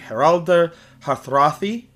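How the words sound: The name is pronounced with Old Norse sounds. "in his original pronunciation"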